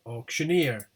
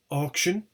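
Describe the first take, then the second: First: AUCTIONEER with main stress on EER; stress on suffix. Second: AUCTION stressed on AUC; stress on first syllable. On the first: Teacher showing stressed suffix, stress on EER. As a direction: land hard on the EER of auctioneer. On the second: Teacher contrasting word with suffixed form, stress on AUC. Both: Shown as a demonstration. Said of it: "the suffix is stressed".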